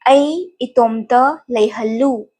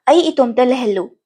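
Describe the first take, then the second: First: It is said at a slower pace. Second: It is said at a faster pace.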